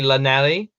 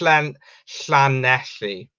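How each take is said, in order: First: It is said with a plain English sound. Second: It is said with the Welsh opening sound. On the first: The speaker calls it wrong. "a lot of people pronounce it wrong" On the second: The speaker calls it right. "You got to properly say like"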